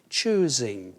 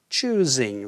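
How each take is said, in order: First: The middle consonant is a Z sound. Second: The same.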